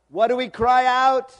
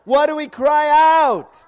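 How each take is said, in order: First: High, very loud demand for an answer; rallying shout. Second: Slow, high bellow to a crowd; full-force shout. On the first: Preacher asking the congregation what we cry, rallying shout. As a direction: call out to the crowd for a response. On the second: Preacher urging congregation to answer louder, full-force shout. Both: Real, not acted.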